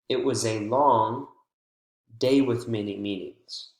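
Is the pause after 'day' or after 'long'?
after long. The pause comes after the word long.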